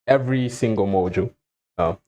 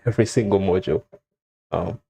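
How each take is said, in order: Both takes have the same delivery.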